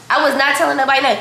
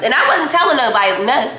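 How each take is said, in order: First: Fast, with "not" pressed a little harder; stress on NOT. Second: Said in the usual way. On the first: Shown as a demonstration. Insisting to followers she never turns clients down, with stress on not. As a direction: hit the word "not" to insist, rushing the rest.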